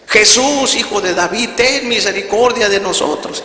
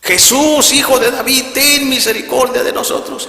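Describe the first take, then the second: First: Loud, high-pitched plea; grito de súplica. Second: Full-force, very high pleading shout; grito más fuerte. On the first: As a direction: cry out together on the count of three. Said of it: "Y empezaron a gritar". (grito agudo de súplica) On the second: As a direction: shout the plea at the top of your voice. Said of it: "otra vez más fuerte". (súplica a gritos, con toda la fuerza) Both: Retold or imitated.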